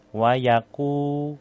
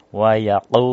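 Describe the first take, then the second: First: "Wayaku" with a light, thin ku; thin qaf. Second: "Wayaku" with an overdone deep qaf, louder; too-deep qaf. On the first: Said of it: "ini tipis, nih". (qaf "Wayaku" dibaca tipis) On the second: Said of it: "itu kan terlalu dalam". (qaf "Wayaku" terlalu dalam) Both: Shown as a demonstration.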